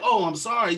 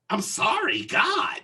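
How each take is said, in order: First: Imitated polite, contrite apology; sincere apology. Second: High, exasperated mock apology; snotty apology. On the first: Shown as a demonstration. Showing how she should have apologized, sincere. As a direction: say it as a genuine apology. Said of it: "Not like". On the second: Imitating cart woman's grudging apology, snotty. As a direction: throw out the apology with annoyance. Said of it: "you know, like that. Not like".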